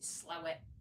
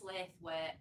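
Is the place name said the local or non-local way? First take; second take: local; non-local. First: The name is said the local Yorkshire way. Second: The name is said the non-local, spelled-out way. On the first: "the Yorkshire people pronounce it Slowett" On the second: "it's also pronounced Slaithwaite"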